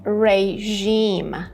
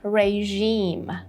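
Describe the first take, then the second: First: The second syllable has a long, strong vowel. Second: The second syllable has a long, strong vowel.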